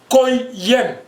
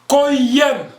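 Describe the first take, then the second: First: The pitch falls at the end. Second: The pitch rises at the end.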